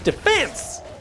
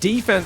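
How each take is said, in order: First: The stress is on the second syllable. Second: The stress is on the first syllable. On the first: "That's that's the fence right there" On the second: "sometimes I feel like I'm making a D joke"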